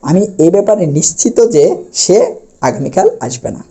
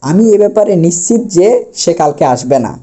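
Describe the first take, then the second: First: নিশ্চিত said "nishchito" before যে; correct final o. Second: নিশ্চিত said "nishchit", no vowel before যে; wrong pronunciation. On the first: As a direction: end নিশ্চিত on a clear "to". (নিশ্চিত শেষে ও-কার দিয়ে) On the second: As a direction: drop the final o of নিশ্চিত. (নিশ্চিত শেষে হসন্ত ত, ভুল উচ্চারণে) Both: Shown as a demonstration. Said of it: "তাহলে এটি ভুল".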